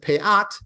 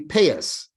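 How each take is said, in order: First: Hebrew pronunciation, ending in a t sound. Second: Yiddish pronunciation, ending in an s sound. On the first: "In the Hebrew" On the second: "with a Yiddish accent"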